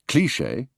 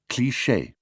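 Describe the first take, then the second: First: Said with a downward English inflection. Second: Said with even French stress. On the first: This is how the British say it. "the English cliché" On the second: This is how the French say it. "the authentic French cliché"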